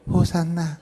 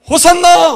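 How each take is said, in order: First: It is said weakly and flatly. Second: It is shouted loudly and excitedly.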